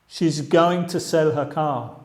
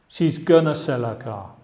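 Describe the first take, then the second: First: Going to is said as two full words. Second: Going to is reduced to a short gonna.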